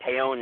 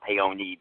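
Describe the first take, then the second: First: "Peon" said as two syllables, PEE-on, silent E; the common mistaken "Peon", ending on the n; "Peon" with the final E dropped; wrong pronunciation. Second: "Peony" said pay-OH-nee, final E sounded; the Italian "Peony", every letter spoken; "Peony" with the E pronounced at the end; correct pronunciation. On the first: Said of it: "mistakenly way to say my name". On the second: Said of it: "it's actually pronounced Peony". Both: Shown as a demonstration.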